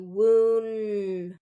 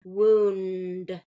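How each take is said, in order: First: The N sound is kept before the D. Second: The same.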